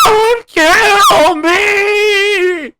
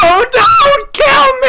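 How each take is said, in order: First: Long, high, wailing plea; drawn-out scream. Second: High, desperate screaming plea; panicked scream. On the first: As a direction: stretch the scream out desperately. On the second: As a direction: shriek it like you're being hunted. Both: Retold or imitated. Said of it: "was that an accurate recreation".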